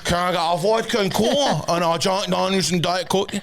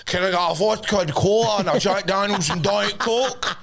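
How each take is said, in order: First: Lilting order, breaking into a laugh; laughing show-off drinks order; laughing repeat. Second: Sing-song drawn-out order, slower; show-off drinks order, sung out; posh sing-song order. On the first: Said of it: "Excuse me". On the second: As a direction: lilt the drinks order like a toff. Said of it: "I'm like". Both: Retold or imitated.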